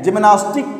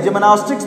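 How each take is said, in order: First: जिम्नास्टिक ending on a bare K; no final S. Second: जिम्नास्टिक्स ending in a KS cluster; final S sounded. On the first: Teacher showing students the form not used, जिम्नास्टिक without final S. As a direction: drop the final S sound from जिम्नास्टिक. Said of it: "नहीं बोलते हैं". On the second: Teacher showing students the correct game name, जिम्नास्टिक्स with final S. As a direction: keep the S after the K in जिम्नास्टिक्स. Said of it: "जिम्नास्टिक्स बोलते हैं". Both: Shown as a demonstration.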